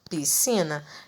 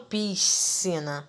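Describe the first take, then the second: First: The S is silent, merged into one sound. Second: The S is sounded separately before the C. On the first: The speaker calls it right. "Eu perco o meu som do S. Eu falo piscina" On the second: The speaker calls it wrong. "Eu não falo piscina"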